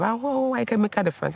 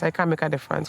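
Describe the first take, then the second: First: Lightly lifted, eager self-encouragement; pep yourself up, mildly higher; excited self-talk. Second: Said in the usual way. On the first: Retold or imitated. Recalling telling herself she can help, mildly excited. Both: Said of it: "I was saying that to myself".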